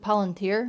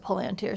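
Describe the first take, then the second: First: The stress is on the last syllable. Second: The stress is on the first syllable. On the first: "because there's an accent on this I" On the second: "in the movie, Gandalf says palantir"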